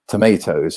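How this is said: It is said with an American accent. "you're looking at American English, so I'm kind of changing my accent a little bit"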